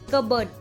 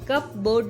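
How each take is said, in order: First: The p is silent, like cubberd. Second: The p is pronounced, like cup board. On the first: The speaker calls it right. "कबर्ड पढ़ेंगे, only कबर्ड" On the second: The speaker calls it wrong. "वहां पे कप बोर्ड नहीं पढ़ेंगे"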